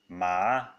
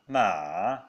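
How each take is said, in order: First: The pitch rises from mid to high. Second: The pitch dips low and then rises. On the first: "the second tone ma" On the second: "The third sounding ma"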